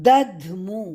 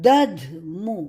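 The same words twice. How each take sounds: The two takes are said the same way.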